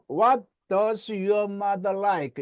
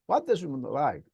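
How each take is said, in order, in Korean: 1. 강하고 센 억양으로 세게 말했어요. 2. 부드럽고 약하게, 거의 안 들릴 만큼 말했어요. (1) "이건 삼 일 안 굶은 거예요" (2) "삼 일 굶으면 어떻게 하나? ... 아예 안 들려버려. 그러니까 부드럽게 하라는 얘기예요"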